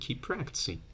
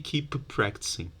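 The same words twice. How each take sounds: First: The two p sounds merge into one. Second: Both p sounds are pronounced separately. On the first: The speaker calls it right. "you just delete one and you say keep practicing" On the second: The speaker calls it wrong. "You don't say keep practicing, p -p -p -p"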